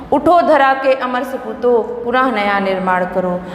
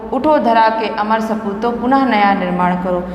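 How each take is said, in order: The two takes are said the same way.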